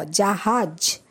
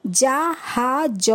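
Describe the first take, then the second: First: Said in the usual way. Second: জাহাজ stretched out very slowly for the class; slow spelled-out reading. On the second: Shown as a demonstration. Teacher modelling for pupils, very slow drawn-out জাহাজ. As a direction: sound out জাহাজ at a crawl. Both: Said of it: "যেরমভাবে আমি পড়লাম".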